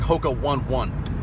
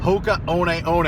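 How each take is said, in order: First: The name is read like English spelling. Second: The name is said with Hawaiian pronunciation. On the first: The speaker calls it wrong. "It looks like" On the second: The speaker calls it right. "it's a Hawaiian pronunciation"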